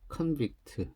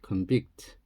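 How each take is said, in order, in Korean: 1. 강세는 첫 번째 음절에 있어요. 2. 강세는 두 번째 음절에 있어요. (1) "명사가 되면 전명이니까 강세가" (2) "동사가 되면 동후니까 강세가 여기인데"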